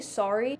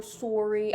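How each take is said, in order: First: Said in the usual way. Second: "sorry" as SORE-ee, stereotypical Canadian; Canadian "sorry" with a round "or"; stereotyped Canadian accent. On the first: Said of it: "I say". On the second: Retold or imitated. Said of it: "Everybody thinks we say".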